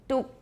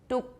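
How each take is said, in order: No difference in how they are said.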